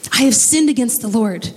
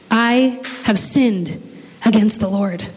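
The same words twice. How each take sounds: First: Said in the usual way. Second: Slow, sincere confession of sin; humble, slow admission. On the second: Acted. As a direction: let each word of the confession land slowly. David confesses, slowed.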